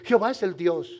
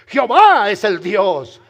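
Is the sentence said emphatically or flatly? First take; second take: flatly; emphatically. First: It is said flatly, without exclamatory force. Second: It is said emphatically, as a strong exclamation. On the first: The speaker calls it wrong. "porque yo puedo y usted leer incorrectamente" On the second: The speaker calls it right. "Es una aseveración declarada"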